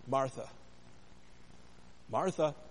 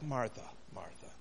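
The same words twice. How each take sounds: First: It sounds like an urgent call for attention. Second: It sounds disapproving, like shaking one's head.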